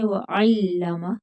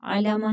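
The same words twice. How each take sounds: First: वअल्लम with a hard doubled l, ain blended in, slowly; वअल्लम, drawn out, tight doubled l; correct pronunciation. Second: अल्लामा with a long final a, the mistake to avoid; अल्लामा, lengthened ending as a wrong example; wrong pronunciation. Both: Shown as a demonstration. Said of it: "अल्लामा नहीं पढ़ेंगे".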